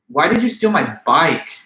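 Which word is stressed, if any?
bike. The word bike is stressed. "Now the accent is placed on the word bike"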